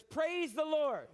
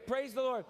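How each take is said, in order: First: Drawn out, higher Praise the Lord; slow proclaiming. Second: Said in the usual way. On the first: Shown as a demonstration. Preacher leads congregation in call, slow and higher. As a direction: proclaim it slowly for all to repeat. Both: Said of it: "Everybody say that".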